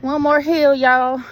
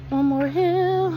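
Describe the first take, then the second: First: Loud, bright cheering call of One more hill; rally the group like a cheerleader. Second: Slow, high, stretched-out One more hill; drawn-out urging. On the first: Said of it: "Cheerleading sis over here". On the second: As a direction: stretch every word out, higher up. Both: Real, not acted.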